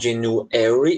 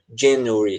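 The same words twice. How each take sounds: First: The stress is on the 'ar' syllable. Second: The stress is on the syllable before 'ar'. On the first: "você pode colocar a sílaba tônica no A" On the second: "colocar a sílaba tônica antes do A, na sílaba anterior"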